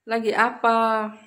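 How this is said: The final vowel is an open 'a'. This is how other Cirebon people say it. "itu pakainya A belakangnya"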